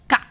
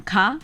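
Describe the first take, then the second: First: "ka" with a tensed, airless K; tense up hard on the K of "ka"; tense consonant. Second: Said in the usual way. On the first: Shown as a demonstration. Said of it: "you just tense up a lot". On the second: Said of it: "So instead of saying ka".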